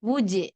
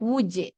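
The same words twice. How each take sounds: The two takes are said the same way.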